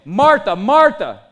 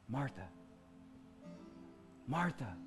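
First: The name is said sharply and sternly. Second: The name is said softly and tenderly. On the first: A scolding rebuke. The speaker calls it wrong. "A lot of us read it like this" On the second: A loving, compassionate call. The speaker calls it right. "he would have said this"

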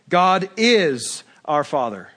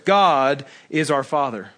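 First: The word is is stressed. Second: The word God is stressed.

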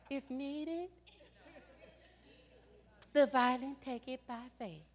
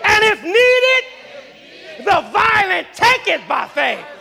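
First: It is said sweetly and meekly. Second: It is said forcefully, really meaning it.

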